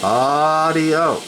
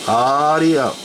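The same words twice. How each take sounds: The two takes are said the same way.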